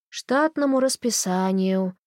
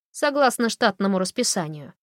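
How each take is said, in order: First: Slow, bored repetition; slow weary repeat of штатному расписанию. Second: Said in the usual way. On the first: A narrator's reading. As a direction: repeat it as if it's obvious and dull. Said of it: "скучно повторила она". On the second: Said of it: "first statement".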